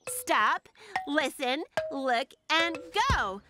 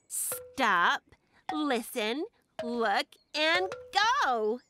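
First: It is said a bit faster. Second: It is said at a normal pace.

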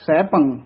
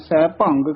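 First: The word ends on a nasal vowel, no g. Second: The word ends with an added g sound. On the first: The speaker calls it right. "ਫਿਰ ਬੋਲਣਾ ਹੈ ਸੈਭੰ" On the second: The speaker calls it wrong. "ਕਈ ਗੱਗਾ ਲਾ ਦਿੰਦੇ ਹਨ, ਸੈਭੰਗ ਕਹਿ ਜਾਂਦੇ ਹਨ। ਇਹ ਤਾਂ ਬਿਲਕੁਲ ਹੀ ਅਸ਼ੁੱਧ ਹੈ।"

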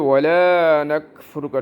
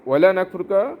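First: The vowel in 'la' is drawn out long. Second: The vowel in 'la' is kept short. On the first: We are not ungrateful to you. "দেখেন টান দিলেন" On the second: We are surely ungrateful to you. "টান দিলেন না"

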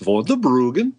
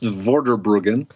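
First: It is said in a Minnesota accent. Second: It is said in a standard accent.

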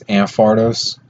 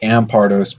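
First: The P sound is left out. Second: The P sound is clearly pronounced. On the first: "without saying the P" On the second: "So I guess you pronounce the P"

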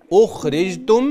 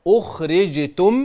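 No difference in how they are said.

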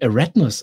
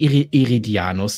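First: The name is said with syllables dropped. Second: The name is said with all its syllables. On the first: This is the name as the series says it. "Die sagen Eratnus" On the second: This is the name as it is written. "Die sagen nicht Eridianus dazu"

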